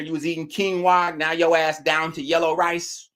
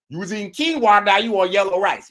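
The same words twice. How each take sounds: First: Said in the usual way. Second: Louder punchline repeat, pitched up; emphatic repeat. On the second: Acted. Streamer repeating the line louder for the chat. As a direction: hammer the joke home the second time.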